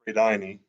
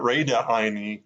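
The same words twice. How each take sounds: First: "Redaini" run together as "Re-dai-ni"; contracted form. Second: "Redaini" stretched out as "Reda-haini"; extra syllable. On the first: Learner showing the right form, "Redaini" contracted to three syllables. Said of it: "it's just Redaini". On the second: Learner showing the wrong form, "Redaini" with an added syllable. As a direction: split "Redaini" into Reda plus a separate "haini". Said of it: "It's not Redaini". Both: Shown as a demonstration.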